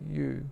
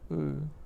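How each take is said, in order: First: The letter is said with its English name. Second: The letter is said with its Sanskrit sound. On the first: "the letter U" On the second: "in Sanskrit they're pronounced as A and U"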